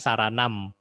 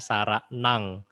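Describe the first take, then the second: First: The word ends with an m sound. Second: The word ends with an ng sound. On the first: "tulisannya kan saranam" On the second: "tapi kita baca saranang ya karena ada M titik"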